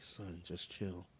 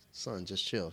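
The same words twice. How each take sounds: First: Slow, soft copy of his line; imitating daughter. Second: Said in the usual way. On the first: Dad showing how his daughter parroted him, slow and soft. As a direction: drag it out like a kid repeating. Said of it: "so then she's like". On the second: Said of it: "I was like".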